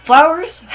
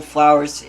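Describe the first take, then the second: First: "Flowers?" shrieked high and loud, rising; very high, loud, incredulous "Flowers?"; startled outburst. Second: Said in the usual way. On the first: Acted. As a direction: shout "Flowers?" as a shocked question. Startled reaction to the news.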